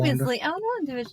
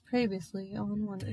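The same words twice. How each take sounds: First: The voice sounds bright and cheerful. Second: The voice sounds low and depressed.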